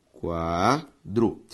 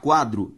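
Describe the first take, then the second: First: "quadro" broken into qua, dro, very slowly; syllable by syllable. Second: Said in the usual way. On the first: Shown as a demonstration. Teacher showing students the separation, syllable by syllable. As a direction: stretch "qua", pause, then "dro". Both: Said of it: "Ao separar quadro".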